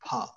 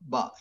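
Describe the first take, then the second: First: The b sound is breathy and energetic. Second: The b sound is plain, without breath. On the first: The speaker calls it right. "we need to use energy to speak like no, it's not ba, it is bha" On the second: The speaker calls it wrong. "it's not ba"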